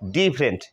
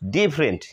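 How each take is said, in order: First: The middle vowel is dropped from the word. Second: The same.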